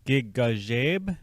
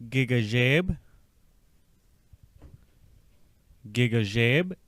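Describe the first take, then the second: First: "Gigajeb" very slow, gi-ga-jeb; "Gigajeb" drawn out, syllable by syllable. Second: "Gigajeb" at normal pace with a rising end; "Gigajeb" run together, lifting at the end; at normal speed. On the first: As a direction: stretch "Gigajeb" so each syllable stands clear. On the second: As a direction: say "Gigajeb" smoothly. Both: Shown as a demonstration. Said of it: "pull these parts a little more together".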